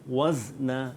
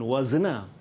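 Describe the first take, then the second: First: The z is held still with no vowel. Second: The z is bounced with a slight vowel echo. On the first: The speaker calls it right. "zai itu mati" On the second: The speaker calls it wrong. "Bukan wazna"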